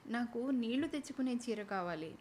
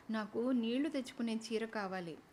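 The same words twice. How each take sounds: First: A gentle, helpless plea; pitifully. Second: A touch of fear, నీళ్లు leaned on, voice falling; a shy aunt afraid to ask for the wrong thing; timidly fearful. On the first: Aunt repeating her request to the shopkeepers, pitifully pleading. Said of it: "అంది పిన్ని దీనంగా". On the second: Aunt asking the shopkeepers for a sari, mildly fearful. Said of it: "అంది వసంత పిన్ని భయం భయంగా". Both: A narrator's reading.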